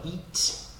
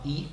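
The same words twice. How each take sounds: First: "eat" with a crisp, audible T; over-careful "eat", T fully sounded; released final T. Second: "eat" with the final T held back, almost "ee"; casual American "eat", T swallowed; American dropped T. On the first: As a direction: finish "eat" on a clearly popped T. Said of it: "nós não vamos falar eat". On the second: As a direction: stop "eat" short without releasing the T. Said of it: "inglês americano". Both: Shown as a demonstration.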